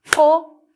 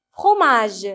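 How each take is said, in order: First: "Fromage" loudly split as fro, ma, ge; "Fromage" with the final ge sounded as its own syllable. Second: Said in the usual way. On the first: Shown as a demonstration. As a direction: count out "Fromage" in three separate beats. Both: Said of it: "Combien de syllabes fromage".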